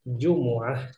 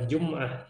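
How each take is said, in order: First: A short u vowel follows the m. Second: The m has no vowel after it. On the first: The speaker calls it right. "tetapi Jumu'ah" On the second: The speaker calls it wrong. "bukan Jum'ah, bukan pakai sukun"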